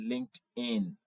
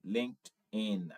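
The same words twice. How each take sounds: The two takes are said the same way.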